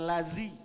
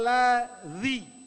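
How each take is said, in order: First: The middle consonant is a plain 'z' sound. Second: The middle consonant is a soft 'th' sound. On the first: The speaker calls it wrong. "bukan lazi" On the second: The speaker calls it right. "Sirotol ladzi"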